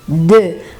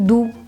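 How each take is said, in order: First: The vowel is a front rounded 'eu' sound. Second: The vowel is a back rounded 'oo' sound. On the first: It means the number two. The speaker calls it right. "Então, é de" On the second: It sounds like the word for sweet. The speaker calls it wrong. "dos alunos falarem do, que não tem nada a ver"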